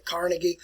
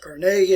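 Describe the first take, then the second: First: Carnegie with stress up front, CAR-nuh-gie; common pronunciation. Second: Carnegie with stress on the middle syllable, car-NAY-gie; preferred pronunciation. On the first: Teacher quoting how many people say the name, Carnegie as CAR-nuh-gie. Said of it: "A lot of people say Carnegie". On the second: Teacher showing students how the name is pronounced, Carnegie as car-NAY-gie. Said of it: "Carnegie is actually the better pronunciation". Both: Shown as a demonstration.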